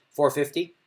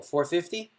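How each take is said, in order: First: "Four fifty" said flat, falling like a plain statement. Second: "Four fifty?" rising up like a question; rising question tune. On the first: Poker player announcing bet, flat statement. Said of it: "some people go". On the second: Bluffer announcing bet like a question, rising tune. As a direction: ask "Four fifty?" with pitch going up at the end. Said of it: "Notice the difference?". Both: Shown as a demonstration.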